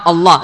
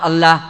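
First: الله with a thick, velarized double L; emphatic tafkhim. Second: الله with a light, plain L; thinned tarqiq. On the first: Teacher models the correct reverent pronunciation, heavy L. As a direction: pronounce الله heavy, dark L and deep vowel. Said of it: "هذا التفخيم تعظيما". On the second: Teacher showing students what to avoid, light thin L. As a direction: say الله wrongly thinned, clear L and front vowel. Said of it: "ترقق، لا". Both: Shown as a demonstration.

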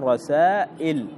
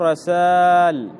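First: رسائل with long aa, then a glottal stop; alif turned hamza. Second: رسال with an overlong, drawn-out aa; wrong double alif. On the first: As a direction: break رسائل at the hamza before il. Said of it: "تقلب الألف". (نطق رسائل بالهمزة بعد المد) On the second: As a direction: stretch the aa of رسال as two alifs. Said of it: "ب-، بألفين". (نطق رسال بمد طويل كأنه ألفان) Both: Shown as a demonstration.

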